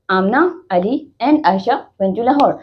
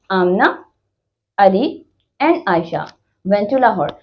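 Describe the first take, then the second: First: Slow "Amna, Ali and Aisha" with only slight breaks; slight comma pauses. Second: "Amna", "Ali", "and Aisha" each set apart by a short pause; comma pauses. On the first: Teacher repeating the list example, slight comma pauses. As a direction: read "Amna, Ali and Aisha went to Lahore" slowly, joined up. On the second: Teacher demonstrating commas in a list, short pause after each name. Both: Shown as a demonstration. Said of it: "थोड़ा थोड़ा pause आया".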